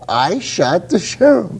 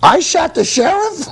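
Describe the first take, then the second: First: It ends with a falling, statement tune. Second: It ends with a rising, question tune.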